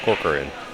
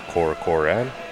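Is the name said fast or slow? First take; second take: fast; slow. First: The name is said quickly, syllables run together. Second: The name is said slowly, syllable by syllable. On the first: "then say it quickly" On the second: "pronounce it slowly once"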